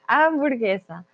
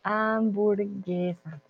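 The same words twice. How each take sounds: First: Said in the usual way. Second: Hamburguesa said softly and slowly; soft slow model word. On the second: Shown as a demonstration. Teacher modelling the word for Chris, soft and slow. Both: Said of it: "no burger, hamburguesa".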